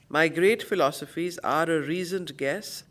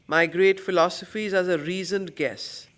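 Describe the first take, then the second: No difference in how they are said.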